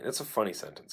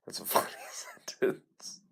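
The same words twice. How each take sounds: First: Said in the usual way. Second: Slow whisper with a laugh. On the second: Shown as a demonstration. Repeats the line, then whispers it.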